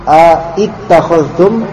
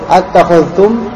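First: A separate 'a' comes before 'ittakhadhtum'. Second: The 'a' merges straight into 'ttakhadhtum'. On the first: This is the underlying form before contraction. "Jadi tadinya a ittakhadhtum" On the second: This is how the form is actually read. "maka dibaca menjadi attakhadhtum"

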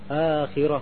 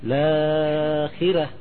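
First: The vowel is held for two beats. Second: The vowel is held for four beats. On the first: "akhirah kan 2 harokat kan?" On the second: "Tapi dia membaca 4"

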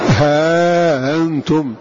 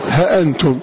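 First: Long vowel, then a softened glottal stop. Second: Short vowel, then a full glottal stop. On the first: "بإثبات الألف وتسهيل الهمزة" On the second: "يقرأ بحذف الألف وتحقيق الهمزة"

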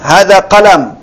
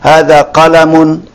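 First: The noun ends without the -un ending. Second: The noun ends with a pronounced -un ending. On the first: "disukunkan ya biar lebih apa mudah" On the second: "diucapkan tanwinnya"

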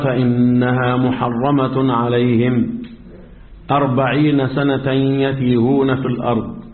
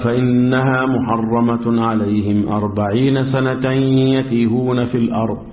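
First: There is a pause after alayhim, before forty. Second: The phrase runs on with no pause. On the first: The forty years are the length of the wandering. "هفهم انا من الوقف بتاعك ايه؟ ان انت بترجح ان 40 سنة مدة ايه؟ التيه" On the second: Neither reading is chosen over the other. "طلع نفسه من القصة دي خالص ووصل"

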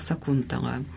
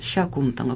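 First: The name begins with an s sound. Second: The name begins with a sh sound. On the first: The speaker calls it wrong. "весь XIX век говорим всегда «Сакунтала»" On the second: The speaker calls it right. "не «С», а «Ще», «Шакунтала» правильно"

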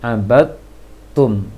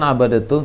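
First: The d merges into a doubled t sound. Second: The d is released with a bounce before t. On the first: The speaker calls it right. "Langsung dibaca ta yang bertasydid" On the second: The speaker calls it wrong. "jangan abadatum"

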